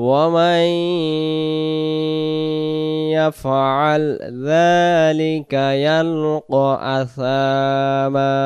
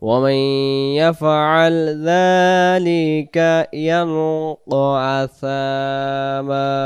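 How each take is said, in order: Both takes have the same delivery.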